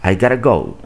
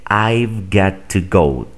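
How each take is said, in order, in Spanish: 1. Got to se reduce a gotta, sin 've. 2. Cada palabra se dice completa, incluido got to. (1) "simplemente dicen gotta" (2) "Lo correcto es decir"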